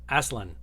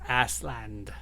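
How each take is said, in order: First: The word ends cleanly on an n sound. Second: The word ends with an audible d sound. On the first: The speaker calls it right. "This is better" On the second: The speaker calls it wrong. "you're definitely saying a D every time"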